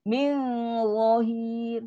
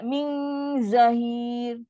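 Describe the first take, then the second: First: "zahir" begun with a heavy za, rounded towards "zo"; "Min zahir" with long hum and raised tongue back; correct thick za. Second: "zahir" begun with a thin buzzing z; "Min zahir" with light z and open a; wrong zai. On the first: Teacher shows za against zai, thick za. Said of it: "Ni za". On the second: Teacher shows what not to say, za turned into zai. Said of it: "Jangan sebut jadi zai pula". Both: Shown as a demonstration.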